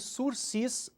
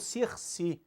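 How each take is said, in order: First: The word is said with Portuguese pronunciation. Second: The word is said with French pronunciation.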